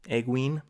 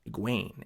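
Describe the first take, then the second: First: The stress is on the first syllable. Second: The stress is on the second syllable. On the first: The speaker calls it wrong. "Emphasis on the egg" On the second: The speaker calls it right. "Emphasis on the second syllable there"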